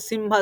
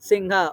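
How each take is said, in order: First: The nasal is a full m with closed lips. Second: The nasal is made without closing the lips. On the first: The speaker calls it wrong. "सिम्हा नहीं होता" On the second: The speaker calls it right. "होठ को चिपकाना नहीं है"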